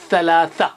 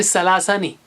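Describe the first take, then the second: First: Teacher models the right सलासा with tongue on teeth; correct Arabic th. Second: सलासा said wrongly as a plain s; teacher shows the wrong सलासा, not lisped. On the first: Scene: teacher modelling the right Arabic sound for students. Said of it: "गौर कीजिए". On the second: Scene: teacher showing students the wrong sound, demo. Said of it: "याद रखिए". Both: Shown as a demonstration.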